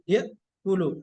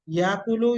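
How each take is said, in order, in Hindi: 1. 'kulu' से पहले एक तेज़ ग्लोटल झटका आता है। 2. लंबा स्वर बिना रुकावट के 'kulu' में आसानी से मिल जाता है। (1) "हमजा को झटके से पढ़ते हैं हम" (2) "बजाय झटके के हम इसको आधा साउंड अलिफ का देके पढ़ दें"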